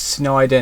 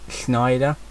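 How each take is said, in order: First: The name begins with a plain S sound. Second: The name begins with an SH sound. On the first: The speaker calls it right. "it's Snyder" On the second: The speaker calls it wrong. "I pronounce it with an S H"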